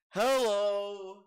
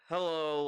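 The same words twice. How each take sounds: First: It is said in an eerie, awkward way. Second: It is said in a shy, less awkward way.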